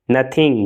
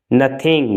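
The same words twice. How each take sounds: The two takes are said the same way.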